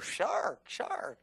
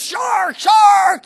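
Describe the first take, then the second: First: It is said quietly and without urgency. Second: It is yelled loudly with urgency. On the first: The danger is not taken seriously. The speaker calls it wrong. "nobody says, oh" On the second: There is real danger and people must act. The speaker calls it right. "You yell it"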